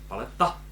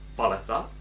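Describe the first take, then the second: First: The stress is on a later syllable. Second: The stress is on the first syllable. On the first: "tak tam mám ten přízvuk" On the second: "mělo přízvuk na první slabice"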